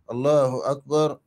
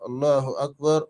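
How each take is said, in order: The two takes are said the same way.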